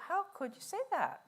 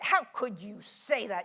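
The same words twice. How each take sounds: First: The question sounds open and genuinely curious. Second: The question sounds accusing and judgmental. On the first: The listener wants to understand the other view. The speaker calls it right. "Get curious" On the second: The listener is condemning the other view. The speaker calls it wrong. "you don't say"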